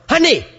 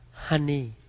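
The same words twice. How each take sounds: First: It is said in a harsh, commanding tone. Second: It is said in a warm, affectionate tone. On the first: The person is not being honored. The speaker calls it wrong. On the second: The person is being honored. The speaker calls it right.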